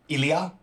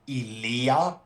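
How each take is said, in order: First: The vowel in the name is kept short. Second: The vowel in the name is drawn out. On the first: This is how many outsiders say it. The speaker calls it wrong. "a lot of people will say" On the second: This is the native Greek pronunciation. The speaker calls it right. "the way you pronounce it in Greek is Ilia. It's more like elongated"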